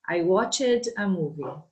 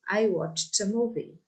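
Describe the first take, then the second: First: Watched ends with an extra separate syllable. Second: Watched ends with a short t sound. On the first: The speaker calls it wrong. "So not to watch it" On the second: The speaker calls it right.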